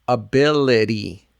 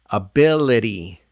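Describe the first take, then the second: Both takes have the same delivery.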